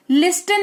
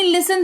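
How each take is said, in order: First: लिस्टन with the T sounded; wrong pronunciation. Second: लिसन with a silent T; correct pronunciation. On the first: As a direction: say लिस्टन as lis-ten. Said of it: "लिस्टन नहीं". (गलत उच्चारण, लिस्टन में ट बोलकर) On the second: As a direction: say लिसन as lis-sen. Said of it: "लिसन पढ़ेंगे". (सही उच्चारण, लिसन में ट मौन) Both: Shown as a demonstration.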